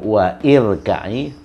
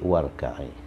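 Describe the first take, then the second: First: An extra i vowel is said after wa. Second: Wa runs straight into rka'i, no extra vowel. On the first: The speaker calls it wrong. "Bukan wa irka'i" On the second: The speaker calls it right. "tapi warka'i"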